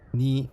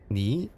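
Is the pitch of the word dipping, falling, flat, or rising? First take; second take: flat; rising. First: The pitch stays level throughout the word. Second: The pitch rises through the word. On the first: "tone one is like flat" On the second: "tone two is like up"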